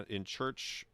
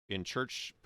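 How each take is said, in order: No difference in how they are said.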